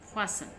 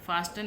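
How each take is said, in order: First: The t sound is silent in the middle. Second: The t sound is pronounced in the middle. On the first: The speaker calls it right. "फासन पढ़ते हैं इसको हम" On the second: The speaker calls it wrong. "फास्टन नहीं पढ़ते"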